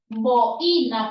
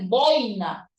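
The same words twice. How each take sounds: First: The stress falls on the i, split off. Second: The stress falls on the first syllable boi. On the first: The speaker calls it wrong. "no es boina con tilde en la i" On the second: The speaker calls it right. "debe ser boina, grave que termina en vocal"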